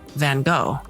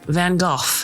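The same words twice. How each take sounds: First: The name is said with an American pronunciation. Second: The name is said with a British pronunciation. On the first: "in American English, we call it" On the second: "in the U K, they call him"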